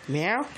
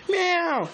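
First: Said in the usual way. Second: Much higher, louder falling meow; cat meow. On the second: Pretend. Kitty cat answering the kid, high meow. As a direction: squeak Meow? like the kitty itself.

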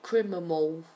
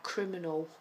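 First: Criminal slurred into "crimimal"; imitated mispronunciation. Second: Said in the usual way. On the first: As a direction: say criminal wrongly, M replacing the N. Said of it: "he calls it criminal". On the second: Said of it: "he can't quite pronounce".

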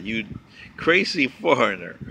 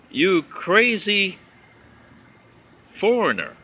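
First: Said in the usual way. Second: Each word drawn out very slowly, mocking the insult; slow mocking read. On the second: Reading a letter-writer's insult aloud, drawn out slowly. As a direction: read it out slow, like holding the insult up for all to see.

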